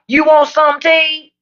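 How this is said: It is said in a clipped Southern accent.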